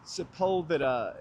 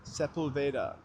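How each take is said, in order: First: "Sepulveda" as se-POOL-ve-da with Spanish vowels. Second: "Sepulveda" as SEP-ul-vay-da, English vowels; anglicized Sepulveda. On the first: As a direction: say "Sepulveda" the Spanish way, stress on pul. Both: Shown as a demonstration. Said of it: "instead of".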